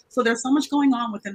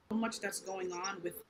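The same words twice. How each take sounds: First: Clearer, projected explanatory voice; speaking up. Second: Very soft, barely audible answer; too quiet. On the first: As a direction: speak up a little so everyone can hear. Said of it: "Can you just speak up just a little bit". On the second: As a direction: speak far too softly to be heard clearly. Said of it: "we can't really hear you as clearly". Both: Real, not acted.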